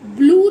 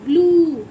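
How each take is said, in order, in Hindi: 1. स्वर छोटा है। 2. स्वर लंबा है। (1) "ब्लू नहीं" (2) "बड़े ऊ की मात्रा है"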